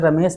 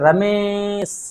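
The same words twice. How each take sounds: First: The vowel is said short and plain. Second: The vowel is stretched out long, like calling. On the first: "उसे रमेश नहीं करोगे" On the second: "कहोगे रमेश, यानी कि मात्रा को खींचना चाहोगे"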